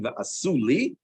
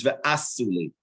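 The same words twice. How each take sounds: First: Ve'asu li with the stress ending on li, rising. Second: Ve'asu li stressed on the first syllable of ve'asu, falling; retracted stress. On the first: Teacher shows the stress that shifts back. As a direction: land on li. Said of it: "instead of saying". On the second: Teacher demonstrates the retracted stress. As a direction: pull the stress back onto ve'asu. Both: Shown as a demonstration.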